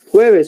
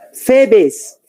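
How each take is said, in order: First: The word starts with a throaty h sound. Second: The word starts with an f sound. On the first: The speaker calls it right. "¿Qué tendría que decir? Jueves" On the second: The speaker calls it wrong. "la gente que no puede pronunciar la J y alguien dice Febes"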